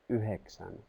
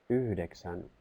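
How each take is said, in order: No difference in how they are said.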